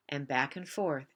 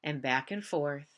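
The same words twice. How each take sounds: The two takes are said the same way.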